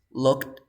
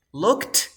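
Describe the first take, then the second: First: "looked" level in pitch, final sound held back; soft D ending. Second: "looked" high and loud, with a sharp T; final T in looked. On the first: Teacher contrasting both endings, "looked" with soft D. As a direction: stop "looked" short, no T burst. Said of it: "But the second one is". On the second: Teacher contrasting both endings, "looked" with released T. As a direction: pop the T at the end of "looked". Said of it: "voy a pronunciar con la T y con la D". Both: Shown as a demonstration.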